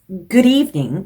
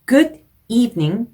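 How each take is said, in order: First: The two words run together without a break. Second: The two words are said with a break between. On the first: The speaker calls it right. "이렇게 연음 처리해줘서 읽으시면 훨씬 더 듣기 좋게" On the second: The speaker calls it wrong. "이렇게 끊어 읽는 것보다는"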